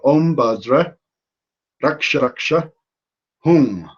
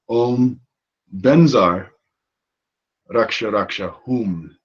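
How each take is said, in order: First: The second word sounds like 'badra'. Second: The second word sounds like 'benzar'. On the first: This follows Sanskrit pronunciation rules. "that would be the proper Sanskrit version" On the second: This follows Tibetan pronunciation rules. "the Tibetanized version"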